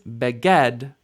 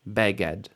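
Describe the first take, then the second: First: The stress is on the last syllable. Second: The stress is on the first syllable. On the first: The speaker calls it wrong. "This isn't beged" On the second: The speaker calls it right. "segol, when it comes at the beginning, tends to pull the stress back"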